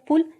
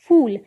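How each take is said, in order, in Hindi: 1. स्वर छोटा है। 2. स्वर लंबा है। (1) "अगर छोटी ऊ का प्रयोग कर दिया गया ... जो कि गलत है" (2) "बड़ी ऊ की मात्रा वाले शब्द का उच्चारण लंबा किया जाता है"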